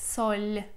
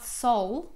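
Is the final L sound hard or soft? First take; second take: soft; hard. First: The final L is soft, palatalized. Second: The final L is hard, not softened. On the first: The speaker calls it right. "The consonant is soft" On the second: The speaker calls it wrong. "It's not sol"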